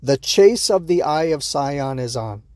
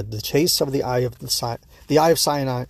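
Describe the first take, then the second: First: Slow, deliberate "Eye of Sion"; measured second attempt at a tongue-twister; careful retry. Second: Stumbling over "Eye of Sion"; halting, fumbled "Eye of Sion"; tongue-tied. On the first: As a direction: get through "Eye of Sion" slowly, word by word. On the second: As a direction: trip on "Eye of Sion", break off and restart. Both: Real, not acted. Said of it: "That's a tough sentence to say".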